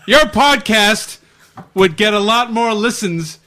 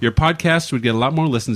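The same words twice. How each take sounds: First: It is read loudly, like shouting in capitals. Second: It is read in a calm, friendly tone.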